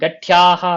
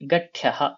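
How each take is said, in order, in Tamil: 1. நடுவுல இருக்கிற உயிர் இழுத்து நெடிலா இருக்கு. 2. நடுவுல இருக்கிற உயிர் குறிலா இருக்கு.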